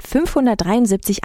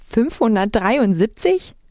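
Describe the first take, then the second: First: Said in the usual way. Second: Slow, rising "Fünfhundertdreiundsiebzig?"; incredulous echo. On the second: A narrator's reading. Narrator stunned at the tiny population, slow incredulous question. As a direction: stretch the number into a doubtful question. Narrator echoes figure in disbelief.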